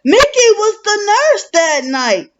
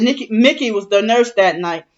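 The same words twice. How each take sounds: First: Much higher, quoted sister's voice; imitating twin sister. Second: Said in the usual way. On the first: Quoting what the twin sister said, pitched up high. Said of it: "my twin sister said". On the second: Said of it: "She said".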